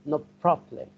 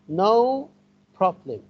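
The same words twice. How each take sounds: First: The two words run together like one word. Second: The two words are said separately, not joined. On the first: The speaker calls it right. "as if they have become one word. We link them together" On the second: The speaker calls it wrong. "We don't say no problem"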